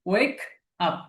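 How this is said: The two words are said apart with a break. "আলাদা আলাদা"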